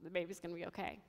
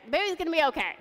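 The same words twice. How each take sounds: First: Very soft, low and subdued; thinking to oneself. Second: High-pitched mock yell; retold yelling. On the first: Retold or imitated. Mother telling herself about her baby, hushed inner voice. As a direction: murmur it privately to yourself. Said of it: "And I think to myself". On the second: Staff yelling news of the baby to the mother, retold yell. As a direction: call it out like frantic hospital staff. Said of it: "and they're yelling".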